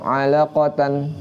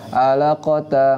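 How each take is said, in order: First: The word ends with an 'an' sound. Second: The word ends with a short 'a' vowel. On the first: "tapi kalau tamar butoh" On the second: "ketika dia disukun, dia enggak alaqata, enggak"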